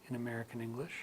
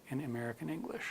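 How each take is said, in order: Both takes have the same delivery.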